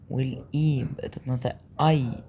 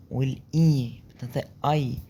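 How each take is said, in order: Both takes have the same delivery.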